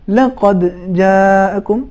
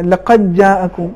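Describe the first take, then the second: First: The d is released separately with a slight bounce. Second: The d is merged into the following j. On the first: The speaker calls it right. "صحیح تلفظ لقد جاءکم، قلقلے کا تلفظ ہونا چاہیے" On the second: The speaker calls it wrong. "اگر کوئی شخص اس طریقے سے پڑھے لقد جاءکم تو یہ ادغام جائز نہیں ہے"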